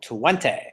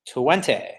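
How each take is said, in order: First: Twenty again, stretched with a low fall; drawn-out Twenty. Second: Twenty stretched, ending on an "ey" glide; a drawled, sing-song Twenty; drawn-out Twenty. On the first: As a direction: repeat Twenty the same playful way. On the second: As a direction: say Twenty with a playful drawn-out finish. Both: Shown as a demonstration. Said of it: "you have to say it like that".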